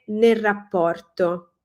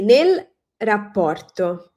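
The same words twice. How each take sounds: First: It is said quickly with the L dropped. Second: It is said carefully with the L audible.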